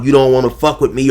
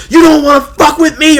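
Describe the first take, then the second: First: Said in the usual way. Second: Much higher, louder screamed threat; mock shouting threat. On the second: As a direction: scream You don't wanna fuck with me hysterically. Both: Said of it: "screaming and hollering".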